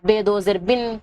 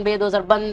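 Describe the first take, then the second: First: بن said as "bin" with a short i; Urdu: بن کو "بِن" پڑھیں; kasra tanween. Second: بن said as "ban" with a short a; Urdu: بن کو "بَن" پڑھیں; fatha tanween. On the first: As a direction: read بن as "bin", ending in -in. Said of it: "جیسا الف دو زیر ان". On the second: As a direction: read بن as "ban", ending in -an. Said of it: "ایسے الف دو زبر ان". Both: Shown as a demonstration.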